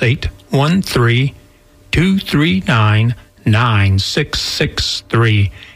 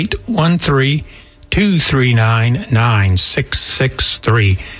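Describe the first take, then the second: First: The number is said more slowly. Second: The number is said at normal speed.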